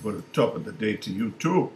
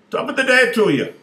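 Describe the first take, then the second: First: Said in the usual way. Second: Squeaky high little-man greeting, loud and bright; leprechaun voice. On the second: Acted. Wee leprechaun greets the man at the urinal, high and loud. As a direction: pitch way up like a tiny leprechaun.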